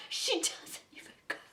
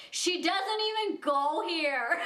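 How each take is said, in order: First: Softly whispered, breathy quote; a sly whispered movie quote aside; whispered Mean Girls line. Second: Put-on slow, laughing Mean Girls quote; quoting the movie line while giggling. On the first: Retold or imitated. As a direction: whisper it like a secret jab. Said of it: "I felt like just standing up and saying that". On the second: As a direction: drag it out through a laugh, higher. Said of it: "I felt in that moment Mean Girls".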